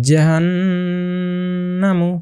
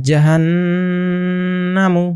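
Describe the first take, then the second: Both takes have the same delivery.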